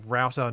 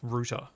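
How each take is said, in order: First: It is said the American way. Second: It is said the British way. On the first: "Australians say router" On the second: "not router"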